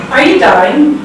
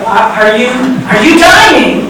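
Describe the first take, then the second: First: Said in the usual way. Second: Exasperated. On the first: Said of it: "the guy on the phone asks me". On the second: Retold or imitated. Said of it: "he sounded like he was starting to get kind of exasperated".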